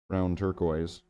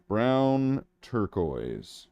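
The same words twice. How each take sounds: First: Said in the usual way. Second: "Brown turquoise" said very slowly, stretching "Brown"; mock grand slow naming; drawn-out name. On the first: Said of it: "That's what it's called". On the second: Shown as a demonstration. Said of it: "That's not what it's called".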